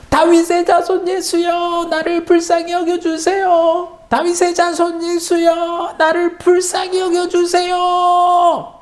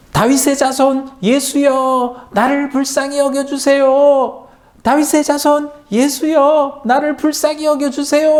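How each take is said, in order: First: Very high, slow desperate wail; louder wailing cry. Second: Crying out. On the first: Blind man afraid the crowd drowns him, very high desperate wail. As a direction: wail it so He hears over the crowd. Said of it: "더 큰 소리로 울부짖었어요". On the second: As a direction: call out to Jesus across the crowd, begging. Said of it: "이렇게 외쳤어요". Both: A narrator's reading.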